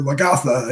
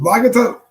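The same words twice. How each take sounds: First: Lagatha stressed on the middle syllable, luh-GAH-thuh; stress on second syllable. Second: Lagatha stressed on the first syllable, LAH-guh-thuh. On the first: Host offering other reading of viewer's name, Lagatha as luh-GAH-thuh. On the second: Host unsure of a viewer's name, Lagatha as LAH-guh-thuh. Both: Shown as a demonstration. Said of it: "it's either Lagatha or Lagatha".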